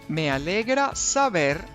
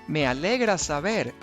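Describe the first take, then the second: The two takes are said the same way.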